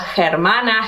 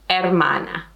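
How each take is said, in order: First: The h at the start is sounded. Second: The h at the start is silent. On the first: The speaker calls it wrong. "it's not going to be hermano or hermana" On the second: The speaker calls it right. "pretend that the H is not there"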